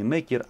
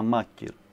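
First: The first vowel sounds like 'e'. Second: The first vowel sounds like 'a'. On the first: The speaker calls it wrong. "Не мекир" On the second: The speaker calls it right. "а макир"

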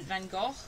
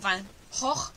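First: The name is said with English sounds. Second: The name is said with Dutch sounds.

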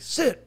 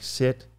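First: The command is said sharply and harshly. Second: The command is said in a mild nagging tone. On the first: The handler puts more pressure on the dog. The speaker calls it wrong. "You don't come down harder on the dog" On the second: The handler just keeps repeating until the dog complies. The speaker calls it right. "almost like a nagging type tone"

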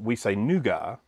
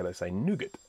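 First: It is said the Australian way. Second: It is said the American way.

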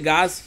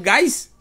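First: The vowel is a plain 'a' with no glide. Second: The vowel glides into an 'i' sound before s. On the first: The speaker calls it right. "A pronúncia deve tirar esse I da história aí, ser gás" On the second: The speaker calls it wrong. "Vocês acreditam que eu falo gás?"

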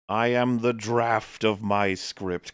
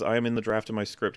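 First: It is read in a grand, epic voice. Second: It is read in a plain, normal voice.

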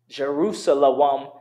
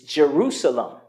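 First: A w sound is pronounced in the word. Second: The w sound is silent in the word. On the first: The speaker calls it wrong. "Jerusalem would be incorrect" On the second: The speaker calls it right. "It's Jerusalem"

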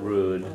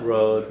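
First: The vowel is a long 'oo' sound. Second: The vowel is a long 'oh' sound. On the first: "not rude" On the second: "Not road"

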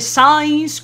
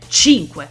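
First: The name is said like English 'science'. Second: The name is said as Italian 'chinkweh'. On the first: The speaker calls it wrong. "i parlanti inglesi non riescono minimamente a pronunciare" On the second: The speaker calls it right. "da italiana, ... il suo nome si pronuncia cinque"

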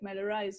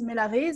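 First: The name is pronounced the English way. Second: The name is pronounced the French way. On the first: The speaker calls it right. "in English, it sounds good. It's like Melarise" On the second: The speaker calls it wrong. "And French is Melarise"

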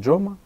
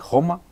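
First: The name begins with a 'j' sound as in 'jam'. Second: The name begins with a throaty 'h' sound.

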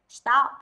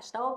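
First: The vowel is said with a wide-open mouth. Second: The vowel is said with a less open mouth. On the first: The speaker calls it right. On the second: The speaker calls it wrong.

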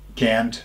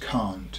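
First: It has an American accent with a short vowel. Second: It has a British accent with a long vowel. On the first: "los americanos sí dicen can't" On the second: "en Inglaterra le decimos can't"

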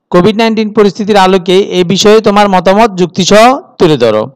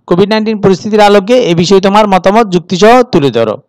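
Both takes have the same delivery.

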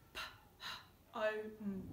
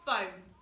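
First: P and h are sounded separately, not as f. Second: The p and h together make an f sound. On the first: The speaker calls it wrong. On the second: The speaker calls it right.

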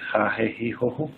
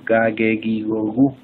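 First: The g is a raspy throat sound. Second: The g is a hard stop sound. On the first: The speaker calls it wrong. "Nunca como gente" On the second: The speaker calls it right. "La G se pronuncia como gato"

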